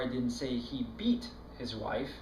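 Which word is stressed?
beat. The word 'beat' carries the main stress. He did something milder than beating. "He slapped her around a little, but he sure didn't beat her"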